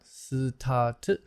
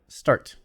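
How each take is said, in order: First: An extra vowel splits it into two syllables. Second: It is said as one tight syllable. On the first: The speaker calls it wrong. "not start" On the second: The speaker calls it right. "but start"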